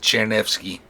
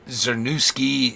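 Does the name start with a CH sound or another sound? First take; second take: CH sound; another sound. First: The name starts with a CH sound. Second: The name starts without a CH sound. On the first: The speaker calls it right. "C Z produces a C H sound, like in chair" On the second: The speaker calls it wrong. "the most common mispronunciation"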